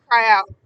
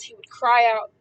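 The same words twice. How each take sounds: First: 1 loud echo. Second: Said in the usual way. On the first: Shown as a demonstration.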